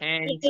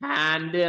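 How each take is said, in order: First: The vowel is an 'ay' sound. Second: The vowel is an open 'aa' sound. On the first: The speaker calls it wrong. "ഹാൻഡ്സ് എന്ന് നമ്മൾ പറയില്ല" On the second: The speaker calls it right. "ഹാൻഡ് എന്നാണ് നമ്മൾ പറയാ"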